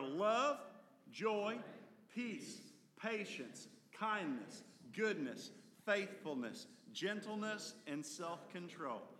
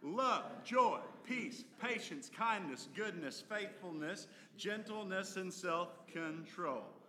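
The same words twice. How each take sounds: First: The list is said at a normal pace. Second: The list is said a little faster.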